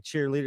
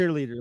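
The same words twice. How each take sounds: First: "cheerleader" as cheer, then leader; two separate words. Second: Said in the usual way. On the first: Shown as a demonstration. Explaining how it was first said, "cheerleader" as two separate words. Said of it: "It was like two separate things". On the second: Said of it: "like we say now".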